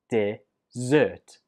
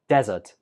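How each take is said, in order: First: The stress is on the second syllable. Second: The stress is on the first syllable. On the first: It names a sweet course after a meal. The speaker calls it right. "on the second syllable" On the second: It names a sandy place. The speaker calls it wrong. "If you put the stress on the first syllable, it sounds more like desert"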